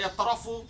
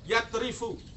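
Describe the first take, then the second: First: The stem vowel is u, after the r. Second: The stem vowel is i, after the r. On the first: The speaker calls it wrong. "jangan dibaca ya trofu. Salah itu" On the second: The speaker calls it right. "harus yang akurat"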